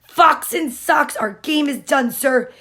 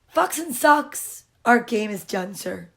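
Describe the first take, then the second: First: The line is yelled loudly. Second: The line is said more quietly. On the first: The speaker calls it wrong. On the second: The speaker calls it right.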